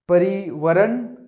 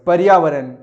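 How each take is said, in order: First: परिवरण said slowly as a wrong option; wrong version, drawn out. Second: पर्यावरण said loud and clear as the right form; right version, loud. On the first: Teacher to class, slowly sounding the wrong form परिवरण. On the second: Teacher to class, loudly giving the correct पर्यावरण. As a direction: announce पर्यावरण firmly as the answer. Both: Shown as a demonstration. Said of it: "पर्यावरण या परिवरण?".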